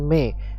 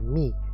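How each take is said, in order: First: The vowel is an open "eh" sound. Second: The vowel is a thin, close "ee" sound. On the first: The speaker calls it wrong. "jangan me" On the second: The speaker calls it right. "turunkan atau jatuhkan rahang bawah kita, mi, dan tipis"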